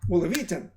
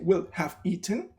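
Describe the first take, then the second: First: Will and have are reduced; only eaten stands out. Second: Will and have are said fully, with stress. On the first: The speaker calls it right. "but I say will have eaten" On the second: The speaker calls it wrong. "I don't say will have eaten"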